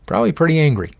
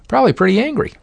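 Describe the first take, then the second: First: Said in the usual way. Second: High squeaky mock voice; high-pitched. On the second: Shown as a demonstration. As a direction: pitch it way up, playful.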